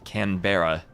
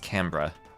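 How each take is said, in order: First: The name is said the way it is spelled. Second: The name is said the Australian way. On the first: The speaker calls it wrong. "it looks like it should be said Canberra" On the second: The speaker calls it right. "all the Aussies tell me that ... I should pronounce it as Canberra"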